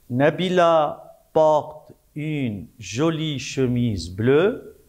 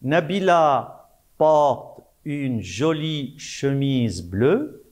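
First: Said in the usual way. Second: Slow, clear dictation to pupils; slow dictation reading. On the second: Shown as a demonstration. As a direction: read each word slowly for the class. (lecture lente de dictée) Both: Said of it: "La première phrase".

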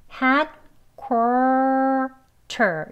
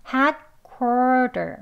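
First: "headquarter" very slowly with a crisp T in "ter"; hard T, to avoid. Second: "headquarter" slowly, ending in a soft "der". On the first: Teacher shows learners the version to avoid, hard T. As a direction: say "headquarter" in drawn-out syllables, T fully released. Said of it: "이라고 하지 않고". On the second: Teacher gives learners the natural version, soft D. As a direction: say "headquarter" with the T turned to D. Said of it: "부드러운 D 발음". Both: Shown as a demonstration.

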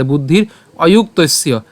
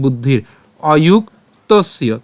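First: বুদ্ধির অযুক্তস্য joined up; said together. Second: Slow, separated বুদ্ধির অযুক্তস্য; broken up. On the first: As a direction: run বুদ্ধির অযুক্তস্য together as one unit. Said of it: "আমরা উচ্চারণ করবো একসাথে". (বুদ্ধির অযুক্তস্য একসাথে উচ্চারণ) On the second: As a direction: break বুদ্ধির অযুক্তস্য into drawn-out parts. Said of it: "আমি এইভাবে ভেঙে দিয়েছি". (বুদ্ধির অযুক্তস্য ধীরে ভেঙে ভেঙে) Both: Shown as a demonstration.

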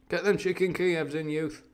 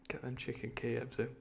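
First: Uncle David. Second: Said in the usual way. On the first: Acted. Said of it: "I've just made him my Uncle David".

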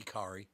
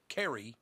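First: Kari with an "ah" first vowel; alternative pronunciation Kari. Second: Carrie with an "eh" first vowel; pronounced Carrie. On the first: Host offering another reading of the name, Kari as KAR-ee. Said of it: "Could be Kari". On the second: Host settling on the character's name, Carrie as KAIR-ee. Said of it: "but I think it's Carrie". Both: Shown as a demonstration.

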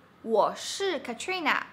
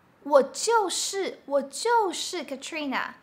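First: Said in the usual way. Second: 就 in 我就是Katrina duidelijk aangezet; stress on 就. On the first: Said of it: "Versus you use 就". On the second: Shown as a demonstration. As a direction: leg de klemtoon op 就. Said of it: "you're emphasizing that you are".

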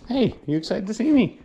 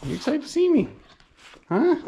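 First: Talking to a dog. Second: Squeaky puppy talk, much higher. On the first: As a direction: coo at your dog. Greeting the dog after coming home. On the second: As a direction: push the dog voice way up. Greeting the dog, repeated. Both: Real, not acted.

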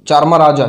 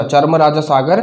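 First: "चारमाराजा" said syllable by syllable, louder, as a careful attempt; careful sounding out. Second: Said in the usual way. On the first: Shown as a demonstration. ("चारमाराजा" को अटक-अटक कर ध्यान से बोलना) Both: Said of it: "चारमाराजा pronunciation में भी wrong हो सकती है".

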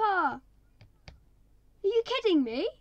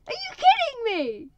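First: Loud, higher disbelief; can't believe what just happened; exasperated. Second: Very high, very loud, slowed outrage; outraged. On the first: Player reacting to losing parrot, loud exasperated disbelief. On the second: Player repeating it louder over dead parrot, outraged wail. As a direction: wail it louder in full disbelief. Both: Real, not acted.

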